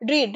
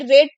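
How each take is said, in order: First: The vowel is long, as in 'reed'. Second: The vowel is short, as in 'red'. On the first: It is the present form of the verb. "इसको रीड बोलते हैं" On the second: It is the past form of the verb. "इसको रीड नहीं पढ़ेंगे, ये रेड पढ़ेंगे"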